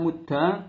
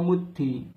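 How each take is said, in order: First: The word ends in an a vowel. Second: The word ends in an i vowel. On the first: "bisa dengan fathah mudda" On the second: "dan bisa kasroh muddi"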